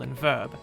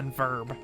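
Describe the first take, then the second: First: The vowel has no r-color, in a British accent. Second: The vowel is r-colored, in an American accent. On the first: "In received pronunciation, they're more like" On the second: "the R-colored vowels that we have in American English"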